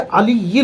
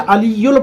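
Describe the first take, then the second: First: The word ends with an 'il' sound. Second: The word ends with an 'ul' sound. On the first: The speaker calls it right. "जबकि अलीयिल है" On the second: The speaker calls it wrong. "यहाँ पर गलती करते हैं, अलीयुल पढ़ते हैं"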